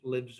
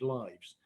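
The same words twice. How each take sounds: First: It is pronounced as the verb form. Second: It is pronounced as the noun form. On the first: It names an action. "the first one is a verb" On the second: It names a thing. "the second one is a noun"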